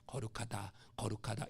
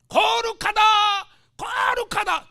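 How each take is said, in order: First: The words are said quietly, without shouting. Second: The words are shouted out loudly. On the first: A mild, ordinary utterance. The speaker calls it wrong. "이렇게 한 게 아니에요" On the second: An overwhelmed cry of awe. The speaker calls it right. "외친 거"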